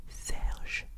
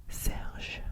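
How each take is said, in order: No difference in how they are said.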